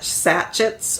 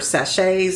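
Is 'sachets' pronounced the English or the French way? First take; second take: English; French. First: It is pronounced the English way. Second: It is pronounced the French way.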